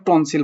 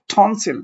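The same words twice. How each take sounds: First: Said in the usual way. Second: "টনসিল" with a strong puff of air on T, falling at the end; aspirated T. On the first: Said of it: "তুমি আর টনসিল বলতে না". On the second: Shown as a demonstration. Teacher correcting learners, "টনসিল" with an aspirated T. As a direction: hit the T of "টনসিল" with a burst of breath. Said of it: "বলবে টনসিল".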